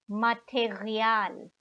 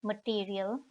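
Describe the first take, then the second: First: "Material" the German way, ma-te-ri-AAL, stress on the long last syllable; German pronunciation. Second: "material" the English way, muh-TEER-ee-ul; English pronunciation. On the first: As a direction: say "Material" slowly as a German word. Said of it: "in the German way". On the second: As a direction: say "material" as English, stress on the second syllable. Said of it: "Written like the English". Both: Shown as a demonstration.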